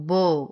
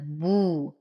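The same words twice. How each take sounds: First: The final u vowel is clipped short. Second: The final u vowel is fully rounded. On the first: The speaker calls it wrong. "فلا أقول بو" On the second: The speaker calls it right. "وإنما بو"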